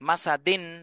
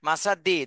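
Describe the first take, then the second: First: The word ends with a clear n sound. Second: The word ends on a vowel without n. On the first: The speaker calls it right. "তানবিনের ক্ষেত্রে দন্তান্ন দিতে হবে" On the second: The speaker calls it wrong. "মাসা দি হবে না"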